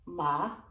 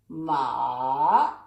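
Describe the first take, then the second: First: It is said with the first tone. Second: It is said with the third, dipping tone. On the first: "That's the first tone" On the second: "the third tone is ma ... You go down and up"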